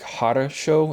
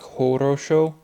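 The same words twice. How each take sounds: First: The O vowels are reduced toward an A sound. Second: The O vowels are said as full O sounds. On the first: "Russians always say like хорошо ... like always like bridge it to an A" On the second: "instead of like хорошо"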